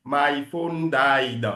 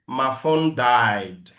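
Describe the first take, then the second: First: Slow African-accented "My phone died". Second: Slow American-accented model. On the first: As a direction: mimic an African English accent, drawn out. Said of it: "faut pas parler comme un Africain". (accent africain imité, lent) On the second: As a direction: say it like an American, drawn out. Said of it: "speak English like an American". (accent américain, lent) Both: Shown as a demonstration.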